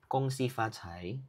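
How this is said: It is said in Mandarin pronunciation. "Mandarin is"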